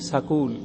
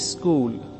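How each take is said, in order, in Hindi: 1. 's' और 'k' के बीच एक स्वर डाला जाता है। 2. 'school' से पहले एक 'i' स्वर जोड़ा जाता है। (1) "पूरा करके बोलेंगे सकूल" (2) "ई लगा करके बोलते हैं स्कूल"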